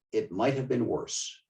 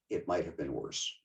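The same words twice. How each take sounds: First: Said in the usual way. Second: Softer, lower repeat of It might have been worse, much quieter and lower; a wry hushed afterthought; quiet echo. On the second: Retold or imitated. Quote repeated for effect.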